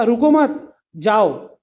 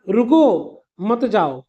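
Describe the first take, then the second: First: "रुको मत" run together, a pause, then "जाओ"; slow, comma pause between "रुको मत" and "जाओ"; pause after मत. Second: "रुको" on its own, a pause, then "मत जाओ" together; slow, comma pause between "रुको" and "मत जाओ"; pause after रुको. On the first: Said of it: "मैं कामा मत के बाद लगा दूँ". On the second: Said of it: "अगर मान लो मैं कॉमा यहाँ लगा दूँ". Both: Shown as a demonstration.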